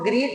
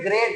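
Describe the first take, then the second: First: The vowel is a long 'ee' sound. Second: The vowel is an 'ay' sound. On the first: The speaker calls it wrong. "ग्रीट नहीं" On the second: The speaker calls it right. "बल्कि ग्रेट पढ़ेंगे"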